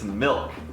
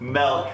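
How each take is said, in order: First: The vowel sounds like 'ih', as in milk. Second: The vowel sounds like 'eh', as in melk. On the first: "But it's milk" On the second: "like with an E"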